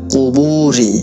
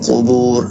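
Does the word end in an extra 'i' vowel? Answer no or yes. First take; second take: yes; no. First: The word ends with a short 'i' vowel. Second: The word ends on the 'r' sound. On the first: The phrase continues without stopping. "এখানে যদি অক্ফ না করেন, ব্রেক না করেন, কুবুরি এভাবেও হয়" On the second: The reader stops at this word. "আর যদি অক্ফ করেন কুবুর এভাবে হয়"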